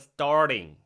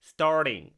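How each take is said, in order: First: The word ends with a full 'ng' sound. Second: The same.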